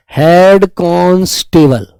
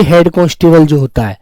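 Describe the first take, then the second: First: हेड constable drawn out slowly, word by word; slow dictation. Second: Said in the usual way. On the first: Shown as a demonstration. Teacher dictating to children, slow. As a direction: spell it out slowly for students writing. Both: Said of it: "तो हेड constable के लिए आप जानते हैं".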